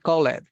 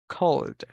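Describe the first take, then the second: First: The ending is said as an extra syllable. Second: The ending adds no extra syllable. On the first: The speaker calls it wrong. "Don't say call it" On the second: The speaker calls it right.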